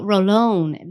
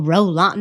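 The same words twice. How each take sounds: First: "Rolon" said as roh-LOHN; slow "Rolon" with a long "oh" in the last syllable; corrected pronunciation. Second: "Roland" said as roh-LAHN; "Roland" with an open "ah" in the last syllable; wrong pronunciation. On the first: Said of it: "People need to say it right". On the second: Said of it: "no, Rolon". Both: Shown as a demonstration.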